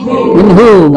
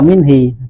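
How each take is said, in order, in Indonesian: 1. Kata ini berakhir dengan bunyi 'u'. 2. Kata ini berakhir dengan bunyi 'i'. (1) "Minhu, enggak minhi" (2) "enggak minhi"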